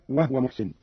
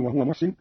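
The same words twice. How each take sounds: First: "وهو" said as wahwa, no vowel on the h; silent vowel on ha. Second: Said in the usual way. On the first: Shown as a demonstration. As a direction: close the ه of "وهو" straight into the waw. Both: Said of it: "قرأ قالون بإسكان الهاء".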